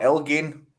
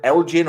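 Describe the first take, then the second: First: "Elgin" with g as in give; hard-g pronunciation. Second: "Elgin" with g as in gem; soft-g pronunciation. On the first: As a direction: say "Elgin" like EL-ghin. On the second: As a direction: say "Elgin" like EL-jin. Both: Shown as a demonstration. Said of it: "I don't know if you pronounce it".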